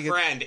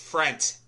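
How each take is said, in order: First: The word ends with a D sound. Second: The word ends with a T sound. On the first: The speaker calls it wrong. "It's not friend" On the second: The speaker calls it right. "it's frent. Like yeah, F-R-E-N-T, frent"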